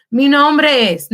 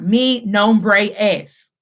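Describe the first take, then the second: First: "Mi nombre es" with nombre and es joined, the e held and flowing into s; linked smoothly. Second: "Mi nombre es" said slowly, each word separate, with a break before es; wrong, choppy. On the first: Teacher showing the class the joined version, "Mi nombre es" run together. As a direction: glide from nombre straight into es, no break. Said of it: "that has your fluidity". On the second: Teacher showing the class the wrong, broken-up version. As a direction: chop "Mi nombre es" into stiff separate words. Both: Shown as a demonstration.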